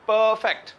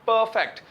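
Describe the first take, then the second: No difference in how they are said.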